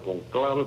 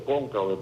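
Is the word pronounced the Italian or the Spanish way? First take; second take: Italian; Spanish. First: It is pronounced the Italian way. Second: It is pronounced the Spanish way. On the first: "así que se pronuncia en italiano" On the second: "en español se dice"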